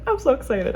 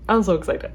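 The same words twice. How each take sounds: First: Excited. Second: Said in the usual way. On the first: Real, not acted.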